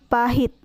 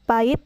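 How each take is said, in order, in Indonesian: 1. Bunyi h diucapkan. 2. Bunyi h dihilangkan. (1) "yang benarnya yaitu pahit, menggunakan H" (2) "contoh salahnya yaitu"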